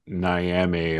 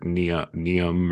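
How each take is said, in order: First: The name is said as two syllables, 'Nee-am'. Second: The name is said as two syllables, 'Nee-um'. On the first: "you're going to hear Niame a lot" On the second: "or Neum"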